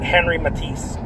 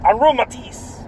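First: Henry said the English way, "HEN-ree"; Henry Matisse, anglicized with a clear English r; English pronunciation. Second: Henri said the French way, "on-REE"; French pronunciation. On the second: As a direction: Henri Matisse with French vowels, no final y sound. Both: Shown as a demonstration. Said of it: "you can pronounce it Henry Matisse".

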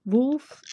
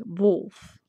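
First: Said in the usual way. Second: "wolf" said as the Dutch word; "wolf" demonstrated in Dutch for learners; Dutch pronunciation. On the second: Shown as a demonstration. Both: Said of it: "I can teach you wolf in Dutch".

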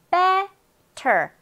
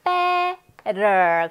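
First: Better as BE, pause, "ter" with clear T; separated syllables. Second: Better as a held BE sliding into a tapped "rer"; rolled T. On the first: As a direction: split "better" slowly and release the T. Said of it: "앞부분의 강세". (better를 '베, 터'로 끊어서) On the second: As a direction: stretch the front of "better", roll the T. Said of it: "대충 마구마구 굴려". (better의 T를 '러'처럼 굴려서) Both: Shown as a demonstration.

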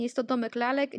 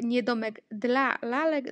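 First: Said in the usual way. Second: Slow down to single out "dla"; "dla" set apart slowly as the word to leave out; stress on DLA. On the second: Shown as a demonstration. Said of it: "dlatego że słowo dla nie wchodzi". (wolniej, z naciskiem na „dla”)

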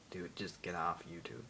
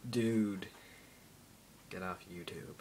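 First: Put-on slow, whispered American accent on "Dude, just get off YouTube". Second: Put-on American accent. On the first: Imagined viewer telling him off, hushed American accent. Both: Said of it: "I can just switch to an American accent".

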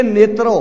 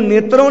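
First: ਨੇਤਰੋ with a pure, un-nasalised final o; oral ending. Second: ਨੇਤਰੋਂ with a nasalised final o; nasal ending. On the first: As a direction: end ਨੇਤਰੋ on an open o, without nasality. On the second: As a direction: end ਨੇਤਰੋਂ on a nasal vowel, as in "eyes". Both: Shown as a demonstration. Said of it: "ਇਹਨੂੰ ਨੇਤਰੋਂ ਨਹੀਂ ਪੜ੍ਹਨਾ".

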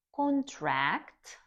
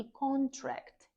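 First: Con-TRACT, the verb; verb stress, second syllable. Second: CON-tract, the noun; noun stress, first syllable. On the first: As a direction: contract stressed on TRACT, high and loud. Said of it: "дієслово". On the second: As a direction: contract stressed on CON, slow and high. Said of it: "іменник". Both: Shown as a demonstration.

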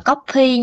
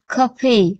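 First: "coffee" said the wrong, Vietnamese-sounding way; Vietnamese-style mispronunciation. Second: "coffee" said as the Korean word, keopi; Korean pronunciation. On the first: Teacher warning learners off mixing languages, Vietnamese-style mispronunciation. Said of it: "Tiếng, tiếng Hàn là tiếng Hàn nha". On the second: Teacher correcting learners' reading, Korean pronunciation. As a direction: model Korean "coffee" with Korean sounds, not Vietnamese. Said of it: "đọc là coffee". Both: Shown as a demonstration.

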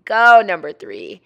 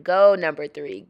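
First: Loud, punched GO, falling after; emphatic voice-over cheer; louder cheer. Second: Light cheer with GO lifted; easygoing voice-over cheer; mild cheer. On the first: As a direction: cheer hard, hitting the word "go". Cheers again, harder. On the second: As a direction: cheer lightly, ending on a rise. Cheers son in voice-over, first take. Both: Pretend.

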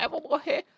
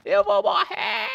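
First: High whiny fake panic; panicking; panicking gamer. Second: Slow, high, loud wail; panicking scream. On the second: Pretend. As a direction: shriek it in hammed-up despair. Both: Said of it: "eu tava zoando só".

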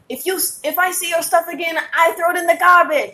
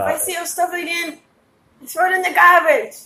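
First: Imitated African accent. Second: Put-on a weak African accent, pitched higher; failed African accent. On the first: Night manager warning a gym member, in an African accent. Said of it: "that's an African accent". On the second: Manager threatening to bin his stuff, in a poor African accent. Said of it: "That's not an African accent at all".

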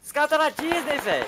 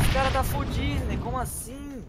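First: High, loud teasing put-on voice; mock the clueless enemy. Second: High, loud, slow drawn-out tease; slow mocking voice. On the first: Mocking lost enemy. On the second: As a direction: stretch it out to mock him. Mocking lost enemy again. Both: Real, not acted.

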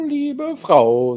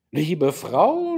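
First: "liebe Frau" viel höher und lauter, pathetisch ausgerufen; übertrieben gekränkt aufs Herz geklagt; theatralischer Vorwurf. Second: Sanfter Vorwurf, noch zurückgehalten; "Liebe Frau" mild tadelnd, mit der Hand aufs Herz; leicht vorwurfsvoll. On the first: (der General ruft seiner Frau pathetisch-vorwurfsvoll zu) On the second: (der General mahnt seine Frau, leise vorwurfsvoll) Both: Acted. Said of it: "sagte er vorwurfsvoll".

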